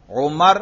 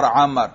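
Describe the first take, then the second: First: عمر said "Umar", opening on u; عمر with a short u after the ain; Umar pronunciation. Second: عمر said "Amar", opening on a; عمر with an open a after the ain; Amr pronunciation. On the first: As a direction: say عمر as U-mar, u vowel first. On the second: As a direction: say عمر as A-mar, a vowel first. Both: Shown as a demonstration. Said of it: "عمر اور عمر میں فرق".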